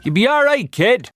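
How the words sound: It is said in a Limerick Irish accent.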